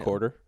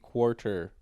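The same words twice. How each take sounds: First: It starts with a plain k sound, no w. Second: It starts with a k followed by a w sound. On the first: "there's no w sound in it for you" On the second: "There's a U after a Q, therefore it must be quarter"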